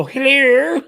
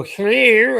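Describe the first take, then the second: First: A high, loud rising "Hello." copying the caller; mocking the scammer back. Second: A high, loud rising "Hello."; mock scammer hello. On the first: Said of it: "I go". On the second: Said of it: "They go".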